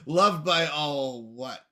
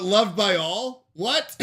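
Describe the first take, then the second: First: "loved by all what" run as one slow phrase; corrected intonation. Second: "loved by all?" rising as a question, then "What?" higher as a separate shocked question; misread intonation. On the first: Shown as a demonstration. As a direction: draw out "loved by all what" as one question, without jumping up on "what". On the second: Real, not acted. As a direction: break before "What?" and jump up in pitch on it. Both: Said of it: "you misread the into-, oh, intonation?".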